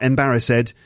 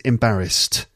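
First: The ending is pronounced as an extra 'id' syllable. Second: The ending is pronounced as a short 't' sound. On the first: The speaker calls it wrong. "it's not embarrassed" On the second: The speaker calls it right. "it's embarrassed. St at the end"

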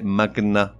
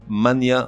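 First: The middle has a hard g followed by n. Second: The middle sounds like 'ny', as in 'mania'. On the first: The speaker calls it right. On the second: The speaker calls it wrong.

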